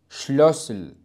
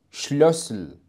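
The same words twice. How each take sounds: The two takes are said the same way.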